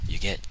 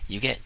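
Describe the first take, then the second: The two takes are said the same way.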